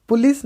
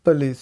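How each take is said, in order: First: पुलिस with a clear "pu" vowel; incorrect pronunciation. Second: पुलिस as "puh-LEES", first vowel reduced; correct pronunciation. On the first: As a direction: say पुलिस as "POO-lis", higher pitched. (पुलिस में साफ़ 'पु', गलत तरीका) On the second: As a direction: say पुलिस with a quick "puh", falling. (पुलिस को 'पलीस' जैसा बोलें) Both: Shown as a demonstration. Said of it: "पुलिस नहीं".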